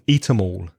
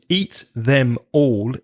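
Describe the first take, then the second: First: The word 'them' is reduced and linked. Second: The word 'them' is said in full. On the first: The speaker calls it right. "We join those sounds together and we say" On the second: The speaker calls it wrong. "is not what we say in English"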